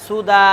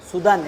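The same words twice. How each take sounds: First: সুদা ending on long open aa, no n; pausal form. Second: সুদান closed on a final n; written form. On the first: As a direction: stop on সুদা with the last vowel drawn out. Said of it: "কি থামতে হবে?". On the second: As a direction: say সুদান with its n sounded. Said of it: "এভাবে আছে". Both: Shown as a demonstration.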